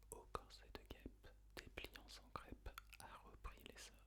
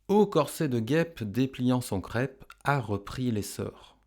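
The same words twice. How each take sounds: First: Barely audible whisper; whispered echo. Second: Said in the usual way. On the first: Shown as a demonstration. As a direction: whisper the verse as a prompt for pupils. Whispered echo in pupils' turn.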